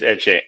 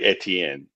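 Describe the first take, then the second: First: The name is said in a clipped, shortened form. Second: The name is said in its fuller French form. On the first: This is the Creole way of saying the name. "I guess it's shortened because it's Creole" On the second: This is the original French form of the name. "But it's really Etienne"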